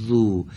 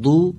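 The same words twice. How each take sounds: First: ذو with the ذ sound held on, unbroken; ذو, tongue tip behind the front teeth, sound sustained; correct ذو. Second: ذو with the ذ sound cut short; a broken ذو that stops too soon; wrong ذو. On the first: Teacher showing pupils the right ذو, held without a break. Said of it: "صداش نباید قطع بشه". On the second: Teacher showing pupils the wrong ذو, cut off. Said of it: "این غلطه". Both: Shown as a demonstration.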